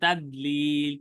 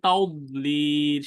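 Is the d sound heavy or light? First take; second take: light; heavy. First: The d sound is light and plain. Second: The d sound is heavy and emphatic. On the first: The speaker calls it wrong. "আমি যদি বলতাম তাদলিল তাহলে কিন্তু ভুল যাইতো" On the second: The speaker calls it right. "সেটা দদ ঠিক আছে"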